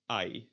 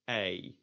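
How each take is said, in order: First: The vowel is said like 'eye'. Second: The vowel glides from 'eh' toward 'ee'. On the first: The speaker calls it wrong. "in German you would pronounce the E Y as I" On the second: The speaker calls it right. "by starting at eh and going to e"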